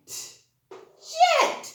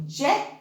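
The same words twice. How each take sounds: First: Said in the usual way. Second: "Jet" split into "je", pause, "t"; sounded out. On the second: Shown as a demonstration. Teacher helping children read, "Jet" broken into sounds. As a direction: sound out "Jet" with a separate final t. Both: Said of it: "can you help me read the words".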